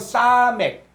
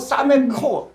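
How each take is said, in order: First: The word ends sharply on the k sound. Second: The word ends with an added vowel after k. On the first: The speaker calls it right. "요건 정확히 할 때 요건 싸맥" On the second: The speaker calls it wrong. "싸맥코 이렇게 했는데"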